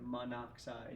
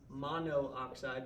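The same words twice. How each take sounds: First: The two vowels merge, giving three syllables. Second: Both o vowels are kept, giving four syllables. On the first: The speaker calls it right. "you typically drop the vowel at the end of your prefix" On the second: The speaker calls it wrong. "That kind of sounds weird"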